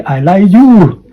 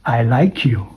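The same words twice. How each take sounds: First: "I like you." said slow, high and loud, the words split apart; wrong take. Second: "I like you." said soft, with "like you" linked; linked take. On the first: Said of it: "Don't say". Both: Shown as a demonstration.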